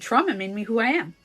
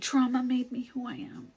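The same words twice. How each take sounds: First: It is said in a grateful, upbeat tone. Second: It is said in a bitter, heavy tone. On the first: The trauma is credited for who one is. "I say" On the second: The trauma is blamed for who one is. "But I don't say it made me who I am"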